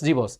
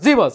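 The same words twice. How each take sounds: First: It is said in a soft, humble tone. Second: It is said in a harsh, barking tone. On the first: The speaker is being polite and respectful. The speaker calls it right. "নরম সুরে বলে" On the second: The speaker is being rude and disrespectful. The speaker calls it wrong. "এভাবে বলে, ঘেউ ঘেউ করে বলে, no"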